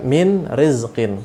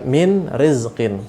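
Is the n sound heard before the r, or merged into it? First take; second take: heard; heard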